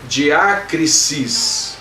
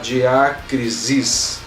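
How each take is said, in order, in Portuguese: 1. O som final é um S sibilante. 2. O som final é um Z sonoro, vibrado. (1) "Som de S e não de Z no final" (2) "acabamos querendo pronunciar diácrisis"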